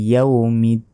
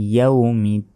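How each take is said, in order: The two takes are said the same way.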